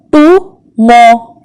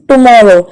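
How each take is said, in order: First: "Tomorrow" slowly as to, mor, row; split into syllables. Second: Said in the usual way. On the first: Shown as a demonstration. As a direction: pause between each syllable of "Tomorrow". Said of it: "There are three syllables". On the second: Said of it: "How many syllables are there".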